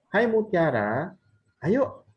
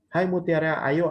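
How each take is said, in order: First: It is said as a lively exclamation. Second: It is read in a flat, plain way. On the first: The speaker calls it right. "mungkin tanda seru" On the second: The speaker calls it wrong. "Misalkan kalau saya baca ya"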